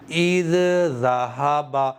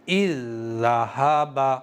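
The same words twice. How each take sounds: First: The two dh sounds are pronounced separately. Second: The two dh sounds are merged into one. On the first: The speaker calls it wrong. "इस तरह से नहीं पढ़ा है मैंने, ध्यान दीजिएगा। ... दोनों जाल को अलग अलग नहीं पढ़ा है" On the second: The speaker calls it right. "बाद वाले को पढ़ा है। कैसे पढ़ा है?"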